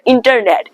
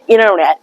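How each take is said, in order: First: The T after the N is clearly pronounced. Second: The T is silent, sounding like double N. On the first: The speaker calls it wrong. "don't pronounce the internet" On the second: The speaker calls it right. "Try to pronounce internet"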